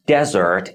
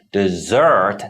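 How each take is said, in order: First: "dessert" with the first syllable stressed, DEZ-ert. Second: "dessert" with the second syllable stressed, de-ZERT; short first syllable of "dessert", long strong second one. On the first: Teacher showing learners first-syllable stress, "dessert" stressed at the front. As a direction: hit the opening syllable of "dessert", let the second fall away. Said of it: "put the stress on the first syllable". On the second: Teacher showing learners second-syllable stress, "dessert" stressed at the end. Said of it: "put the stress on the second syllable". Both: Shown as a demonstration.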